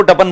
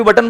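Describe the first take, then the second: First: "टपन" said in place of बटन; toddler mispronunciation. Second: Said in the usual way. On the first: Retold or imitated. Speaker quoting his daughter's baby word, toddler mispronunciation. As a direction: swap the sounds, "टपन" for बटन. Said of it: "बटन को टपन बोलती थी". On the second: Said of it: "अभी बटन बोलती है बराबर".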